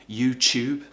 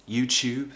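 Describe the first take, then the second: No difference in how they are said.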